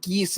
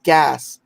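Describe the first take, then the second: First: "geese" for gas, long ee vowel; Spencer's gas said as geese. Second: Said in the usual way. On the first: Retold or imitated. Retelling Spencer's way of saying gas, "geese" with long ee. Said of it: "the way he would say gas was geese". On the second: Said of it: "No, it's called gas".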